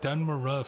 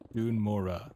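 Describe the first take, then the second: First: The first word has a short vowel, like 'dun'. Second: The first word has a long vowel, like 'dune'. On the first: This is the long-habitual way of saying it. "I've been saying it Dun Maruf for like eighteen years" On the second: This is the newly adopted way of saying it. "Dune, like the book, more"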